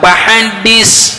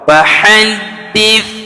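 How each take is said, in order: First: The last consonant is an 's' sound. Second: The last consonant is a 'th' sound. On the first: The speaker calls it wrong. "Bukan pahadis. Nah, kalau padis sin" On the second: The speaker calls it right. "lidahnya digigit di antara ujung gigi seri atas dan bawah"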